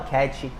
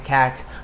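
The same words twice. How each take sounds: First: An extra vowel sound is added after the t. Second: The word ends cleanly on the t sound. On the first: The speaker calls it wrong. "Não coloca a vogal na final da frase quando não tem" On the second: The speaker calls it right. "Sempre termina no quê? Na última consoante"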